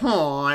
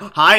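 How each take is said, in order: First: The greeting is said in a sad tone. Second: The greeting is said in an ordinary tone. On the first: "Imagine just being sad" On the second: "a normal like hi"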